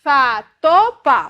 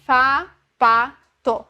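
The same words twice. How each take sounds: First: Fa, to, pa read louder in the wrong order; wrong syllable order. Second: Fa, pa, to read in the right order, still one syllable at a time. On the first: Teacher showing a child reading the syllables in the wrong order. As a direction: stumble through fa, to, pa as a confused reader. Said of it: "Daí ele pode pensar". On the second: Teacher showing the child finally reading the syllables correctly. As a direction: sound out Fa, pa, to carefully in the correct order. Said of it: "Agora sim". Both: Shown as a demonstration.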